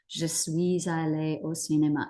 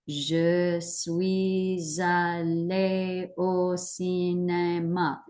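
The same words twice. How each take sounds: First: It is said at an ordinary pace. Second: It is said slowly, piece by piece.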